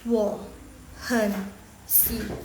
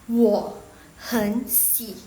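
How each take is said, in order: First: The word 'hen' is said with a low tone. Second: The word 'hen' is said with a rising tone. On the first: The speaker calls it wrong. "Sama yang nada ketiga semua" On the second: The speaker calls it right. "nada ketiga yang nomor dua itu langsung ubah jadi nada kedua"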